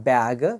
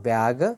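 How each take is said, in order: Both takes have the same delivery.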